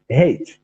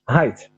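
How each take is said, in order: First: The vowel sounds like the one in 'late'. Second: The vowel sounds like the one in 'bite'. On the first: The speaker calls it wrong. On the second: The speaker calls it right.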